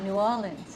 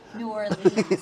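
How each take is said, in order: First: It is said the local New Orleans way. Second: It is said the way Buffalo people say it. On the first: The speaker has become a true local. "you said New Orleans" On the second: The speaker is an outsider from Buffalo. "instead of New Orleans, like Buffalo"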